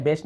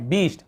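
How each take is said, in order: First: बेस्ट, open "e" in place of "ee"; mistaken e vowel. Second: बीस्ट, vowel as in "bee"; long ee vowel. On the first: Teacher showing students what not to read, बेस्ट with "e". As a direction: say बेस्ट with an "e" as in best. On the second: Teacher giving students the right reading, बीस्ट with "ee". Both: Shown as a demonstration. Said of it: "बेस्ट नहीं, वो क्या है".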